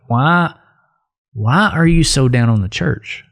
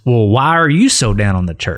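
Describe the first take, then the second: First: It sounds like a sincere, curious question. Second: It sounds like a pointed, accusatory challenge.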